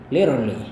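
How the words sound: It is said in an American accent.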